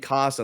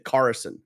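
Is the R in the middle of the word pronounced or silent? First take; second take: silent; pronounced. First: The R in the middle is silent. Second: The R in the middle is clearly pronounced. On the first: "I don't hit the R" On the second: "An American would, they would say Carson, right? They would hit, hit the R"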